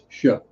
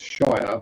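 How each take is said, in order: First: The vowel is short and weak, like 'sher'. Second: The vowel is full, like 'fire'. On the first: The word is the end of a county name. "when you add it to something else" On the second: The word stands on its own. "When you put it on its own"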